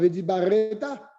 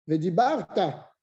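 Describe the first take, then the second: First: A short vowel is pronounced between r and t. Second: No vowel is pronounced between r and t. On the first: The speaker calls it wrong. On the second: The speaker calls it right.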